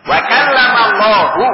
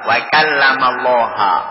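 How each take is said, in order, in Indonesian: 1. Kata Allah berakhir dengan vokal 'u'. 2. Kata Allah berakhir dengan vokal 'a'. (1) "Allahunya dirofakkan di domah, menunjukkan fa'il" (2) "Musa yang berbicara dengan Allah"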